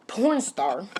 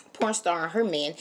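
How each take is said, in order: First: "porn star" stretched very slowly with a rising curl; slow, sneering emphasis on "porn star"; disdainful drawl. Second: Said in the usual way. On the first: Real, not acted. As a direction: let the words hang out in contempt. Contemptuous label for dinner guest.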